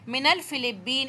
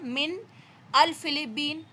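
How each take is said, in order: First: The first two words are joined into one. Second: The first two words are said separately. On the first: The speaker calls it right. "इस नून को जबन जबर के साथ मिला के आगे से साथ करके पढ़ेंगे" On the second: The speaker calls it wrong. "आप ऐसे नहीं कह सकते"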